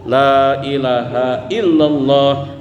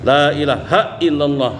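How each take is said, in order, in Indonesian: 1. Bunyi ha mengalir lancar; illallah yang mendapat tekanan. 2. Bunyi ha ditekan keras ke suku kata berikutnya. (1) "Hanya biasa, illallahnya itu yang ditekan" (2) "itu kan ditabrakkan ke hamzah"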